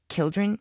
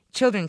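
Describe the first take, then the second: First: Put-on "Children" begun with a hard K, rising; mispronounced, querying. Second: Put-on "Children" with a firm CH, falling; corrective pronunciation. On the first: Puzzled manservant queries "Children", hard K and questioning rise. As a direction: ask "Children" with K for CH, higher. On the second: She corrects her manservant, "Children" with a firm CH and fall. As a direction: correct "Children" louder and higher, starting CH. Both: A narrator's reading. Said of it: "Tovey corrected him".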